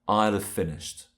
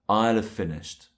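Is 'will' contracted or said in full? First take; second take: contracted; contracted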